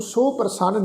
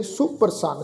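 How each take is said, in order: First: ਸੋ ਪ੍ਰਸੰਨ said as two words with a full o in ਸੋ; wrong pronunciation. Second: ਸੁਪ੍ਰਸੰਨ as one word with a short u; correct pronunciation. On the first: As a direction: split ਸੋ off from ਪ੍ਰਸੰਨ with a long o. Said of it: "ਇਹਨੂੰ ਸੋ ਪ੍ਰਸੰਨ ਨਹੀਂ ਕਹਿਣਾ". (ਗਲਤ ਉਚਾਰਨ: ਸੋ ਪ੍ਰਸੰਨ) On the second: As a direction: run ਸੁ straight into ਪ੍ਰਸੰਨ with a short u. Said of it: "ਉਚਾਰਨ ਹੋਏਗਾ ਜੀ ਸੁਪ੍ਰਸੰਨ". (ਸਹੀ ਉਚਾਰਨ: ਸੁਪ੍ਰਸੰਨ) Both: Shown as a demonstration.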